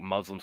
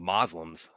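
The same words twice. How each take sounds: First: "Muslims" with a U in the first syllable; standard Muslims pronunciation. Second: "Moslems" with MOZ as first syllable; Moslems pronunciation. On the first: Co-host comparing name variants, standard Muslims pronunciation. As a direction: say "Muslims" the standard way, not Moslems. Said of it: "I hear occasionally, like, Muslims called Moslems". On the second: Co-host citing a variant heard occasionally, Moslems pronunciation. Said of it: "called Moslems". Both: Shown as a demonstration.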